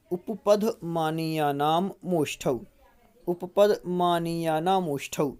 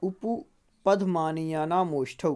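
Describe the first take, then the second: First: Sutra chanted slowly; slow recitation. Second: Sutra said slowly once more; slow repeat. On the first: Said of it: "पूरा ये उच्चारण कर लेते हैं". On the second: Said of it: "फिर से". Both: Shown as a demonstration.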